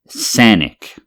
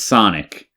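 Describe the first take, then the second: First: The name is said in an odd, joking way. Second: The name is said in its ordinary way. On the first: It references an internet joke. "you never heard the meme?" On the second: It simply names the restaurant. "It's Sonic"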